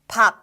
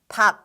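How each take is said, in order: First: The word ends on a closed final consonant. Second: The word ends on a closed final consonant.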